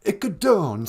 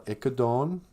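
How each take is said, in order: First: Ikadon said again, higher, ending in a fall; repeating the word. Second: Ikadon with a rising end, spoken for the learner to repeat; Ojibwe word. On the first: Student repeating Ikadon after the teacher, falling end. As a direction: echo back Ikadon like a student. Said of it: "say it". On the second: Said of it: "means say it". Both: Shown as a demonstration.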